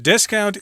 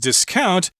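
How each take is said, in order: First: The stress is on the first syllable. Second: The stress is on the second syllable. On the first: It is used as a noun. "discount is the noun" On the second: It is used as a verb. "discount is the verb, but very few people actually say it that way"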